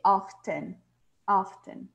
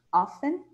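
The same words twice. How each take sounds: First: "often" said OFF-ten, the t clearly sounded. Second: "often" said as OFF-en, no t sound; silent t. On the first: Teacher demonstrates "often" with the t spoken. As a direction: pronounce the t in "often". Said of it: "Ou você pode falar com o T". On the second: Teacher demonstrates "often" with a silent t. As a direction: drop the t in "often" completely. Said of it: "sem pronunciar o T". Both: Shown as a demonstration.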